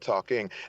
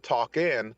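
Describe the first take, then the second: First: The ending is a full 'ng' sound. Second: The ending is a plain 'n' sound. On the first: This is the standard form for writing and reading. "but I need to write talking" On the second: This is how it is casually spoken. "when I'm speaking, I may say talk in"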